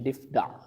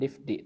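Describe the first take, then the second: First: The word ends with an 'a' vowel. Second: The word ends with an 'i' vowel. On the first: The speaker calls it right. "tapi difda" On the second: The speaker calls it wrong. "Bukan difdi"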